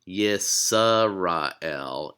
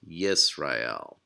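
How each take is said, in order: First: A short vowel is heard after the S. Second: No vowel is heard after the S. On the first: The speaker calls it wrong. "It's not Yisrael" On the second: The speaker calls it right. "it's just Yisrael"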